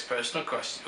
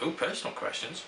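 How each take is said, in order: First: Said in the usual way. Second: A playful, rising ooh, intrigued by "personal questions". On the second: Shown as a demonstration. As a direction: tease it like juicy gossip.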